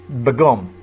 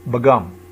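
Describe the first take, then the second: No difference in how they are said.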